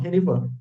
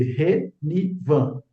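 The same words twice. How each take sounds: First: Said in the usual way. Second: "Renivan" slowly split into three syllables, Re, ni, van. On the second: Shown as a demonstration. Teacher showing learners the valid form "Renivan", syllable by syllable. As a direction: say "Renivan" with a gap after each syllable.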